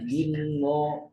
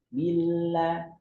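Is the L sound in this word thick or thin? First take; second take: thick; thin. First: The L sound is heavy and thick. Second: The L sound is light and thin. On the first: The speaker calls it wrong. "bukan dibaca tebal" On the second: The speaker calls it right. "harusnya dibaca dengan tipis"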